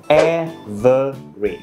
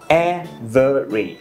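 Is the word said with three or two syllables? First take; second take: three; three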